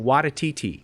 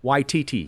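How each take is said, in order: First: The name has an extra syllable inserted. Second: The name has no extra syllable inserted. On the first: The speaker calls it wrong. "why is there an extra syllable in there" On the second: The speaker calls it right.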